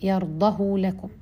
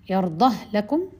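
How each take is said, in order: First: The h sound is followed by a long u. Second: The h sound carries no vowel before 'lakum'. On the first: "وبالصلة" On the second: "إسكان"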